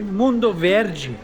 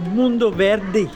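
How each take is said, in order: First: The D is said as in Bahia. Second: The D is said the local way. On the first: This is how it is said elsewhere in Brazil. "they don't say Mundo Verde" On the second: This is how people here say it. "they say Mundo Verde"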